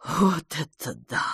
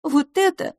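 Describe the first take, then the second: First: Tremulous. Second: High, gentle voice; soft. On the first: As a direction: breathe it out with a slight tremble. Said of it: "трепетно сказала мисс Петтигрю". (трепетно, с благоговением) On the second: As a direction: say it softly, pitched well up. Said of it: "мягко сказала мисс Лафос". (мягко, высоким голосом) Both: A narrator's reading.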